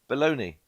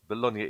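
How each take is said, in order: First: It is said with an American 'baloney'-like pronunciation. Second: It is said with an Italian-style pronunciation. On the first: It names the processed meat. The speaker calls it wrong. "as the American, uh, Americans call it" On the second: It names the city in Italy. The speaker calls it right. "Bologna in Italy"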